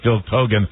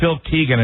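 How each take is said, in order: First: The surname's first vowel sounds like 'oh'. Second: The surname's first vowel sounds like 'ee'. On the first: The speaker calls it right. "he was actually" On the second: The speaker calls it wrong. "we called him"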